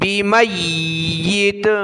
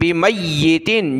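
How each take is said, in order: First: The word ends abruptly on a bare 't'. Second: The word ends with an added 'in' sound. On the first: The reader stops at this word. "जब रुकेंगे वक़फ़ करेंगे तो" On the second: The reading continues without stopping. "ता दो जेर तीन"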